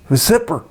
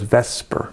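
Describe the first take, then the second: First: The acronym is sounded out literally as written. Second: The acronym is said as the word vesper. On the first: The speaker calls it wrong. "if you said it like it looks, it'd be like VSEPR" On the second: The speaker calls it right. "doesn't sound as cool as VSEPR"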